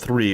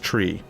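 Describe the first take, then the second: First: The word begins with a th sound. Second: The word begins with a t sound. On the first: "It wasn't three" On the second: "They couldn't make that sound"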